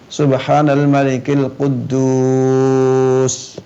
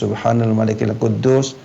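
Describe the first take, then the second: First: The word Quddus is drawn out long. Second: The word Quddus is said at normal length.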